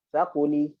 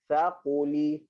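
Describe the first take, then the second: First: Quick, fluent demo reading; fast. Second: Slow, careful demo reading; slowly. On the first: Teacher demonstrating for class, fast reading. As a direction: say it fast in one breath. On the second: Teacher demonstrating for class, slow reading. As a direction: take each syllable slowly. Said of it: "Okey, pelan-pelan". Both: Shown as a demonstration.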